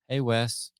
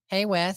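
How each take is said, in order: First: It is said in a lower voice. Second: It is said in a higher voice.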